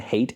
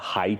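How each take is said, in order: First: The name is said like the word hate. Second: The name is said like the word height. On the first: "They called him Hate, H A Y T" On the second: "You call it Height or something, but that's stupid too"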